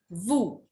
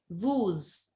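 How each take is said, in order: First: The final s sound is silent. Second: The final s sound is pronounced. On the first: The speaker calls it right. "What we will say? Woo" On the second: The speaker calls it wrong. "we will not say woos"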